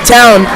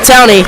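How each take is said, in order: First: The name is said with one syllable. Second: The name is said with two syllables. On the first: The speaker calls it right. "I was mispronouncing Ryan Towney's name" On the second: The speaker calls it wrong. "not Towney"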